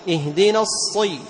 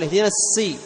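First: The s-sound is emphatic, with a raised tongue back. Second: The s-sound is plain, like an ordinary s. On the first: The speaker calls it right. "لاحظ" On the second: The speaker calls it wrong. "أنت بيقول اهدينا السي"

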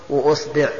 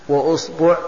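Both takes have the same delivery.

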